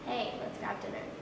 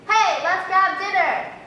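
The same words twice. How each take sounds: First: It is said at normal volume. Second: It is said loudly, with more air pressure.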